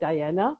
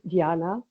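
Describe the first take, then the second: First: The name is said the English way. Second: The name is said the German way. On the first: "the English speaking people call me Diana" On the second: "for the German European is Diana"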